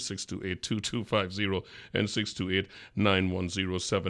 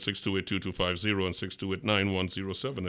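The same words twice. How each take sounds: First: The number is read slowly. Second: The number is read quickly.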